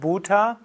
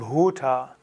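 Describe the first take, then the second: First: The B has no audible breath after it. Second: The B has an audible breath after it. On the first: The speaker calls it wrong. "Also nicht Bhuta" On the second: The speaker calls it right. "das H ist hörbar"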